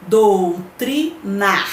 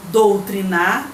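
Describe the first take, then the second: First: Doutrinar split into slow, separate syllables; teacher's slow syllable breakdown of "doutrinar". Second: Said in the usual way. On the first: Shown as a demonstration. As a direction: sound out "doutrinar" slowly, pausing between syllables. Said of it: "só que separando a sílaba".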